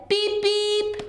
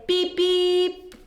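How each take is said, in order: First: Higher honking beep; truck beep. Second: High honking beep; truck horn beep. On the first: Teacher voicing Blue greeting Hen, bright beep. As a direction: honk like a toy truck. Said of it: "Blue said". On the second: Teacher voicing Blue's horn for the children, playful beep. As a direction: toot it like a little truck horn. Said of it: "Little Blue likes to say". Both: Acted.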